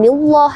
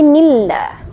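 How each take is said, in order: First: The 'lah' is pronounced heavy, toward o. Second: The 'lah' is pronounced thin, with an a. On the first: The speaker calls it wrong. "bukan nillah ya" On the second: The speaker calls it right. "Maka dibaca tipis. ... tapi nillah"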